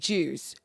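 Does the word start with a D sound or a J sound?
J sound. The word begins with a J sound. This is the British way of saying it.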